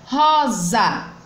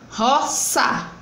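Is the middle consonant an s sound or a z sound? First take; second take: z sound; s sound. First: The middle consonant is a buzzing z sound. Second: The middle consonant is a hissing s sound. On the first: The speaker calls it right. "entre vogais vai ter som de Z" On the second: The speaker calls it wrong. "não botando o som de Z, mas botando o som do S"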